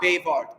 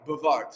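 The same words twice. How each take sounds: First: The first vowel is said full and clear. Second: The first vowel is reduced to a weak schwa. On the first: The speaker calls it wrong. "not bewahrt" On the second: The speaker calls it right. "So it's one of those Schwab outs"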